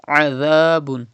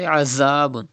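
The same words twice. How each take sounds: First: "Azabun" with a voiced th and long a; Zal without whistle. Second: "Azabun" with a buzzing z; mistaken whistle. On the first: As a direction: use dh in "Azabun", no buzz. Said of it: "Pronounce Zal without whistle". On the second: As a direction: say "Azabun" with a plain English z. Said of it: "Do not say Azabun". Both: Shown as a demonstration.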